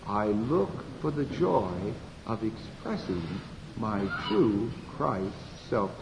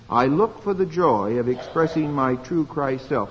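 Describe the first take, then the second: First: It is said very softly. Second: It is said at normal volume.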